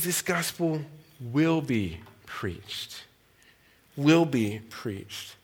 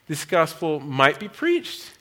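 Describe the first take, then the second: First: "will" drawn out and slow, leaned on hard; slow, quiet, heavy weight on "will"; stress on will. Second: Said in the usual way. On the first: Retold or imitated. Quoting Piper to the crowd, slow with stress on will. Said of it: "He says".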